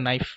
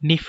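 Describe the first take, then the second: First: The vowel is an 'eye' sound. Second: The vowel is a long 'ee' sound. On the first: This is the later pronunciation. "এরকম এই ই থেকে আই উচ্চারণটা" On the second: This is the older pronunciation. "এরকম এই ই থেকে আই উচ্চারণটা"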